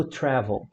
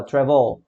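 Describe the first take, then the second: First: "travel" stressed on the first syllable; tônica no TRA. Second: "travel" stressed on the last syllable; tônica na última sílaba. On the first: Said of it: "A sílaba tônica tra". ("travel" com tônica no TRA) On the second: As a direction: say "travel" punching a long VEL. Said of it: "a última sílaba". ("travel" com tônica no VEL) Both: Shown as a demonstration.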